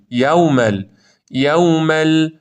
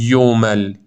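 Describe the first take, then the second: First: یومل said "yawmal"; open, drawn-out "yaw" in یومل; correct open vowel. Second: یومل said "yomal"; wrong rounded vowel. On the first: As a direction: keep a clear a before w in یومل. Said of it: "فتحه نباید بره سمت ضمه". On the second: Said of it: "پس نخونید یومل". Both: Shown as a demonstration.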